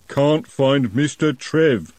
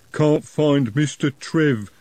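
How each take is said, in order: First: Slow troll, a bit louder. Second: Slow plodding troll. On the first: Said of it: "the troll repeated, louder". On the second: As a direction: drag each word, dim troll. Troll speaks. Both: A narrator's reading.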